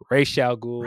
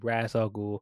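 First: The name is said as the cartoon says it. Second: The name is said as the film says it. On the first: This is how the animated series pronounces it. "I always say it the way they said it in animated series" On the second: This is how the movie pronounces it. "they pronounce his name"

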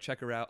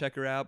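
First: It is said in a plain, neutral tone. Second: It is said in a suggestive, leering tone. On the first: Watch her appearance on the show. The speaker calls it right. "but like check her out on the show" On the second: Look at her attractiveness. The speaker calls it wrong. "Not like check her out"

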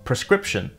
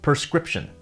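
First: The word begins with the sounds pre. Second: The word begins with the sounds per.

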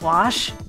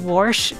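First: It uses the standard widespread pronunciation. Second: It uses a local regional pronunciation.

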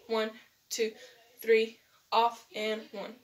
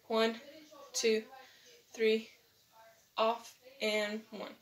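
First: The count is said fast. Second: The count is said slowly.

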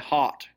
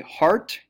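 First: The R after the vowel is dropped. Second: The R after the vowel is pronounced. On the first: "we're doing things like dropping our R" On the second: "where we might say heart"

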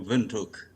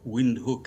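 First: It is said with a local, non-English pronunciation. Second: It is said with an English pronunciation.

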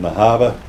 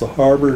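First: It is said in a Boston accent. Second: It is said in a plain accent.

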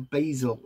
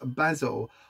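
First: The word has an American pronunciation. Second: The word has a British pronunciation.

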